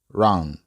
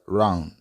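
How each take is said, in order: Both takes have the same delivery.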